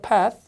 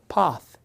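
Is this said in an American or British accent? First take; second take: American; British. First: The vowel is the short flat American sound. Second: The vowel is a long, open British sound.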